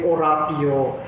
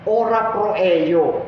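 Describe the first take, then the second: First: The words are rushed and blurred into one word. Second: Each word is said clearly and separately. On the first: The speaker calls it wrong. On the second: The speaker calls it right.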